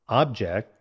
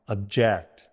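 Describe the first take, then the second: First: The stress is on the first syllable. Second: The stress is on the second syllable. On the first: It names a thing. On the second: It means to disagree with something.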